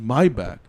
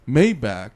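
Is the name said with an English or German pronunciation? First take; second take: German; English. First: The name is said with a German pronunciation. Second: The name is said with an English pronunciation. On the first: "like the German pronunciation" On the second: "He doesn't say"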